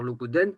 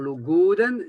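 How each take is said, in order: First: It has Vannetais dialect stress placement. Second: It has standard Breton stress placement. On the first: "quelqu'un qui parle comme Vantais, il va dire" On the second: "quelqu'un a une accentuation bretonne, il va dire"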